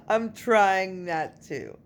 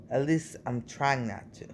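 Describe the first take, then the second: First: Slow, higher, through a laugh. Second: Said in the usual way. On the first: Real, not acted. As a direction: repeat it laughing at yourself.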